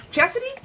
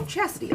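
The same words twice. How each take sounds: First: Chastity? rising up high like a question; unsure try. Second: Chastity. said high then falling, settled and final; settled name. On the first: Trying out a client's name, unsure rising question. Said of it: "I'm gonna say this wrong". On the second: Getting the client's name right at last, firm falling tune. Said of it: "Okay, I got you". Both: Shown as a demonstration.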